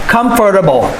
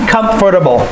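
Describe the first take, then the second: No difference in how they are said.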